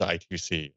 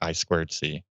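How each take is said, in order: First: The middle part is read as 'two'. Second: The middle part is read as 'squared'. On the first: The speaker calls it wrong. "I thought it was" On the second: The speaker calls it right. "it turns out it's actually"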